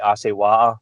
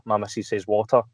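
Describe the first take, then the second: First: "water" with the t dropped, like "wa-er"; Scottish "water". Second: "water" with a clear, crisp t; Edinburgh "water". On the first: Scotsman showing his own way of saying water. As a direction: say "water" as a glottal "wa-er". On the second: Scotsman showing his wife's proper way of saying water. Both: Shown as a demonstration.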